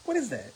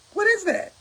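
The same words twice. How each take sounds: First: Flat repeat. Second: High, incredulous "What is that?". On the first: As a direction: let "What is that?" fall quietly, disgusted. Repeats flatly, quieter. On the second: About members flattering union reps, high incredulous question. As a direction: rise up in disbelief on "What is that?". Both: Real, not acted.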